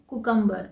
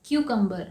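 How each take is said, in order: First: कुकम्बर starting with a plain "koo"; कुकम्बर said "koo-kum-bar", the common mistake; कुकम्बर without the "kyoo" glide; wrong cucumber. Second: क्यूकम्बर starting with "kyoo"; क्यूकम्बर said "kyoo-kum-ber"; क्यूकम्बर with a y glide after the k; correct cucumber. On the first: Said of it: "इसे कुकम्बर नहीं कहते हैं". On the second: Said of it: "इसे कहते हैं क्यूकम्बर". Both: Shown as a demonstration.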